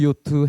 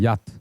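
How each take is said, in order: First: The word begins with a 'yo' sound. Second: The word begins with a 'ya' sound. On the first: This is the form borrowed through Japanese. The speaker calls it wrong. "우리가 그때 요트 요트 해서 지금 요트가 된 거고" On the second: This is the original form of the word. The speaker calls it right. "원래는 야트입니다"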